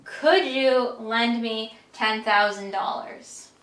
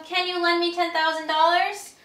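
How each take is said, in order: First: Slower, careful polite ask; polite request. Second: Higher, easy friendly ask with rising end; casual request. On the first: Friend politely asking for a big loan, slow and careful. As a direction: mind your manners asking a friend. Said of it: "have their manners since they're asking you for a lot of money". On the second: Close friend casually asking for the money, upbeat and easy. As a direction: ask like an old pal. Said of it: "They're being very close with you". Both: Shown as a demonstration.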